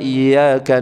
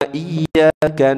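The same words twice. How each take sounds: First: The y sound is short and single. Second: The y sound is held long and doubled. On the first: Only your sunlight do we worship. The speaker calls it wrong. "Kalau enggak dibaca tasdid" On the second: Only you do we worship. The speaker calls it right. "iyanya itu ada tasdidnya"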